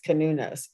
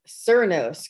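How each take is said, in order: First: The name is pronounced with its Celtic pronunciation. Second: The name is pronounced the way it is spelled. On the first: The speaker calls it right. "in the Celtic uh, pronunciation, it's best known as Canunos" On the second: The speaker calls it wrong. "I was mispronouncing it, ... I was calling it uh, Cernos because it's it looks like that"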